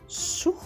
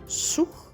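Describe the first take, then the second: No difference in how they are said.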